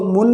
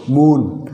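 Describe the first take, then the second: First: मुन with a short, quick u; मुन mispronounced with a brief u instead of long oo; wrong short vowel. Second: मून with a long, held oo; मून drawn out on its vowel; correct long vowel. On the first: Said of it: "इसको मुन नहीं बोलेंगे". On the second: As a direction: stretch the oo in मून. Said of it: "इसको हम क्या बोलेंगे?". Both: Shown as a demonstration.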